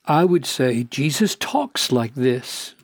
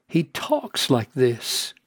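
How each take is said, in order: First: Said in the usual way. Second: Slowed down and softer, leaning on he; slow, soft repeat. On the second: Shown as a demonstration. Preacher repeating his point to the congregation, slow and soft. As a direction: say it again slowly and quietly, letting it sink in.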